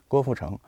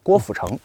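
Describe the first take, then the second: First: The name is said in standard Mandarin. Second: The name is said in a Northeastern accent.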